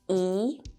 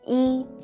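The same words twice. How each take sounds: First: The syllable is said with a rising pitch. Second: The syllable is said on a level pitch. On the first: It comes before a falling-tone syllable. "一 becomes the second rising tone" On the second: It is used as a numeral when counting. "it is the first, first flat tone"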